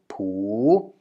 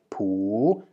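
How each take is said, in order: No difference in how they are said.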